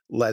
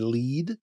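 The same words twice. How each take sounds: First: The vowel is short, like in bed. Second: The vowel is long, like in need. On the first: It means the metal. The speaker calls it right. "I think lead is what we're looking for" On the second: It means a clue. The speaker calls it wrong. "like a clue"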